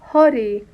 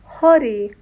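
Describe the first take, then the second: The two takes are said the same way.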